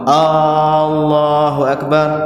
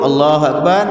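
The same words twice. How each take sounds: First: The opening vowel is drawn out long. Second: The opening vowel is said short. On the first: It turns into a question: is God the greatest? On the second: God is the greatest.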